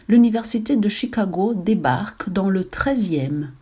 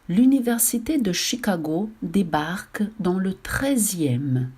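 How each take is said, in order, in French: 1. La phrase est lue à un rythme normal. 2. La phrase est lue à un rythme lent. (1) "la lecture du titre et du chapeau de l'article" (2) "la lecture lente"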